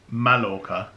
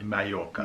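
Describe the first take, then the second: First: The middle sound is an L sound. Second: The middle sound is a Y sound. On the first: "which is spelled Mallorca" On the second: "in Spanish is a y"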